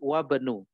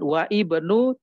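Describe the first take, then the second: First: The words merge with no separate 'i' vowel. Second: A separate 'i' vowel is sounded before 'bnu'. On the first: The speaker calls it right. "tapi wabnu" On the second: The speaker calls it wrong. "Bukan wa ibnu"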